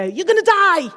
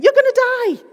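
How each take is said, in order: First: Higher, louder alarmed cry; mock panic. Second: Much higher, louder alarm; mock panic. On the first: Brain's alarm voice warning students, mock panic. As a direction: play the panicking amygdala. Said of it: "It's there to basically go". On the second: Amygdala yelling at exam students, hammed-up panic. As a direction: squeal it like a panicking brain. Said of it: "your amygdala is saying".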